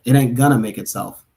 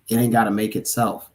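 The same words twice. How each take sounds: First: Correcting with a firm gonna; stress on gonna. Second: Said in the usual way. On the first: Real, not acted. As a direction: hit gonna to correct the word. Corrects misread gotta to gonna.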